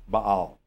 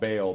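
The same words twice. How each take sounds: First: The name is said the careful original way. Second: The name is said the common everyday way. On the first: This is the proper way to say it. The speaker calls it right. "the proper pronunciation is Baal" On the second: This is how people usually say it. The speaker calls it wrong. "we call him Baal"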